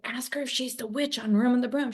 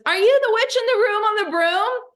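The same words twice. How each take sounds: First: Said in the usual way. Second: Put-on high, loud child's question; little girl's voice. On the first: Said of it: "I said". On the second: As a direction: pipe it up like an eager little girl. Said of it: "She goes".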